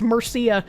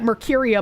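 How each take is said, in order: First: The name is said without it, as Murcia. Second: The name is said with an extra syllable, Mercuria. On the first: The speaker calls it right. "I'm pretty sure it's Murcia" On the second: The speaker calls it wrong. "I keep pronouncing that Mercuria"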